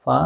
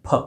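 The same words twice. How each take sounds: First: फा said with a long open aa, the common mistake; wrong long vowel. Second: फ said short and crisp, with no long aa; correct short sound. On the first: Teacher shows students the mistake, long drawn फा. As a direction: show the wrong फा, stretching the vowel. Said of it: "कई लोग इसको फा बोलते हैं". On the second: Teacher corrects students, short crisp फ. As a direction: give the right फ, clipped short. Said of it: "ये होता है फ". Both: Shown as a demonstration.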